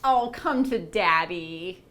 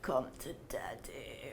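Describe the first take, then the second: First: It sounds warm and welcoming. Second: It sounds creepy, like the Hellraiser villain.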